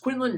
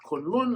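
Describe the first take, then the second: First: The first syllable sounds like 'kwin'. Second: The first syllable sounds like 'kun'. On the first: The speaker calls it right. "It is pronounced Quinlan" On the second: The speaker calls it wrong. "not Kunlun, as some people want to pronounce it"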